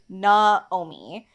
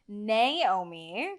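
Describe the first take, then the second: First: The name has a Hawaiian pronunciation. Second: The name has a mainland American pronunciation. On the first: This is how the father intended the name. "that's like the Hawaiian pronunciation of it" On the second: This is how the name was said growing up. "I grew up with my name being pronounced Naomi"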